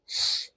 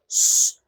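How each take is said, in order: First: "ش" as soft airy palatal hiss; German ich sound. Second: "ش" as a plain full sh; ordinary sh. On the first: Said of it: "بتتنطق ش". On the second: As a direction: say "ش" like English sh, not German ch. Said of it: "مش بتتنطق ش". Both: Shown as a demonstration.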